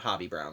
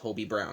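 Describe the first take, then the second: First: The first vowel is a short 'o' sound. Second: The first vowel is a long 'oh' sound. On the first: The speaker calls it wrong. "not Hobby Brown, like I've been saying" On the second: The speaker calls it right. "apparently his name is actually pronounced Hobie Brown"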